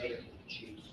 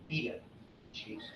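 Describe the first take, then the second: First: It is said with an American accent. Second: It is said with a British accent.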